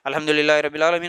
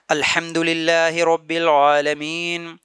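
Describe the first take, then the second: First: It is recited quickly, rushing along. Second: It is recited slowly and calmly.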